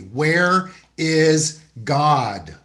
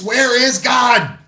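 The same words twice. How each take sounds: First: It is said sternly at normal volume. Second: It is said very loudly and sternly.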